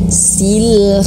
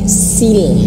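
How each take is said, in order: First: The vowel sounds like a clear i. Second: The same.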